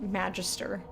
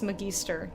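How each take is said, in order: First: It is said like the word magistrate. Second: It is said unlike the word magistrate. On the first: The speaker calls it wrong. "not magister. Like, not like magistrate" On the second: The speaker calls it right. "I'm gonna be pronouncing this magister"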